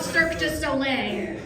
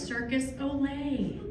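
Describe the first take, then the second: First: It is said with its French pronunciation. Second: It sounds like the English words circus olay. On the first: The speaker calls it right. "not Cirque du Soleil" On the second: The speaker calls it wrong. "he referred to that traveling circus troupe as Circus Olay"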